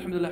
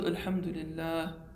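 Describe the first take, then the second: First: It is said quickly and mumbled, without feeling. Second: It is said slowly and earnestly, with feeling.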